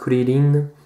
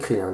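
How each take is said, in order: First: It is said with a Japanese pronunciation. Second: It is said with a French pronunciation. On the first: "en japonais ici Krillin" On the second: "en français Krillin"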